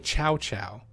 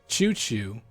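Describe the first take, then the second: First: Each syllable starts with ch and rhymes with cow. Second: Each syllable starts with ch and rhymes with too. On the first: "They might even say Chow Chow" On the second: "People are gonna pronounce that as Choo Choo"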